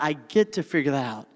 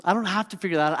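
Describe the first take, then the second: First: "get to" said lower and softer as the gift; softer, grateful weight on "get to"; stress on get to. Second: "don't have to" leaned on as the thing to drop; "I don't have to" pressed as the old complaint; stress on don't have to. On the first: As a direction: land on "get to" with quiet conviction. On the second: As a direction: hit "don't have to" as the wrong frame. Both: Shown as a demonstration.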